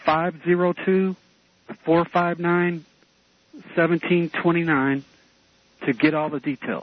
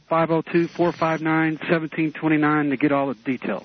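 First: It is said much more slowly. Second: It is said at normal speed.

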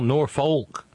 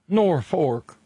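First: The second syllable has an audible L, like folk. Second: The second syllable has an R, like fork. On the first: "sometimes even pronouncing the L" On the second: "That's N-O-R-F-O-R-K"

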